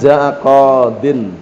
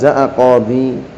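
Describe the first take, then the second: First: The word ends with a din sound. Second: The word ends with a di sound. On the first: It is the original form with nunation. "aslinya jaa qadin tanwin" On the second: It is the pausal form keeping the final vowel. "Ya-nya ditetapkan masih ada, boleh"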